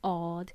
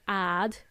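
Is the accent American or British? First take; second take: British; American. First: It is said in a British accent. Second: It is said in an American accent. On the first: "And the British people say odd" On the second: "I think Americans say odd"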